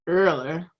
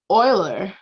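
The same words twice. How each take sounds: First: The name is said in a Southern accent. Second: The name is said in a general accent.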